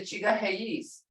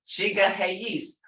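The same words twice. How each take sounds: First: Said in the usual way. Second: "Chiga heis" said slowly, each syllable clear; slow careful Creek word. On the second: Shown as a demonstration.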